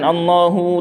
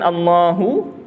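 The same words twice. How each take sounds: First: The final vowel is drawn out long. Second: The final vowel is short. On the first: The speaker calls it wrong. "tak boleh. Hu jangan panjang" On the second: The speaker calls it right. "hu tebal. Hu satu satu harakat, jangan panjangkan"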